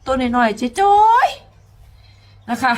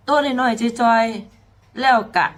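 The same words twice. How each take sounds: First: Drawn-out high. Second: Very slow, each syllable weighed; slow emphatic. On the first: Singer stresses how tiny the girl is, drawn out high. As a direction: stretch it out slowly in a higher voice. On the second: Singer repeats how small the girl is, slowly. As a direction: lean on every word, slowly. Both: Shown as a demonstration. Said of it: "repeats tiny phrase differently".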